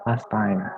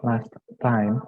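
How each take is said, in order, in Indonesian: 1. T di akhir last dihilangkan. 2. T di akhir last diucapkan.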